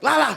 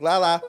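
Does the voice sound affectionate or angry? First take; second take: angry; affectionate. First: It is said in an annoyed, angry tone. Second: It is said in a warm, affectionate tone. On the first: It shows the speaker is mad at him. "when I'm like mad at him and I'm like Lala" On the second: It means I love you. "instead of telling him like love you, I just be like Lala"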